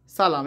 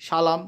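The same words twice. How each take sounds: First: Said in the usual way. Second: "সালাম" starting with sh, sha-lam; wrong pronunciation. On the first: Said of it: "দন্ত স এর উচ্চারণ হবে". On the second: Shown as a demonstration. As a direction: say "সালাম" with sh in place of a dental s. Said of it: "তা কিন্তু বলিনি".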